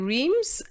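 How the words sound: It is said with an English pronunciation. The speaker calls it wrong. "in English, we say Reims"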